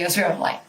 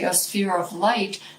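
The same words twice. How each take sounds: First: It is said quickly and rushed. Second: It is said slowly and deliberately.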